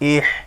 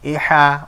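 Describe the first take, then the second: First: The word ends on a bare consonant. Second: The word ends with its final vowel sounded. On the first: The reader stops at this word. "এটাই আরজি সাকিন, জবরে থামিলে সাকিন ধরে পড়তে হয়" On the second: The reader continues without stopping. "জবরে না থামিলে যেমন আছে তেমন করে পড়তে হয়"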